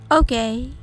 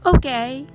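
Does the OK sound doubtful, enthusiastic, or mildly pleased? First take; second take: doubtful; mildly pleased. First: It is said with a hesitant, doubtful tone. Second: It is said with mild, surprised approval. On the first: It is not very good. "珍しい飲み物を初めて飲んで微妙だったとき" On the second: It is better than expected. "思ったよりまあまあいい味だったとき"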